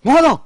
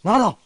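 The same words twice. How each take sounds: First: Echoing the sum, high and loud; stunned repeat. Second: Said in the usual way. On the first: Acted. Friend gasps at the fifty-thousand donation, shocked and loud. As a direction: blurt it out in shock.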